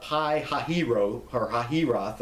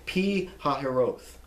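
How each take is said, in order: First: Pi Hahiro said wrongly with Pi as "pie"; mock mispronunciation. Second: Pi Hahiroth slowly, Pi said as "pee"; correct pronunciation. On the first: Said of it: "It's not". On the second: Shown as a demonstration. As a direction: model Pi Hahiroth slowly as "pee hah-hee-ROTH". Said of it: "It's not Pi Hahiro".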